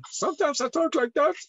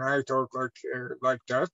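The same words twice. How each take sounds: First: Much higher, put-on voice; high changed voice. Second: Very deep voice. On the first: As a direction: jump up into a high register. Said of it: "My voice is changing at all time". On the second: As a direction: drop into a low, deep register. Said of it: "sometimes I talk very deep". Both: Shown as a demonstration.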